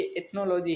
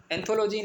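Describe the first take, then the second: First: एथनोलॉजी with the n after the th; corrected word. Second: एंथोलॉजी with an extra n sound before th; wrong word. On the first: Teacher correcting a student to the right word, corrected reading. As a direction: say "एथनोलॉजी", th first, then n. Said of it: "ये एथनोलॉजी है". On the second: Teacher showing a student the mistaken word, wrong reading. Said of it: "एंथोलॉजी नहीं है बेटा". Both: Shown as a demonstration.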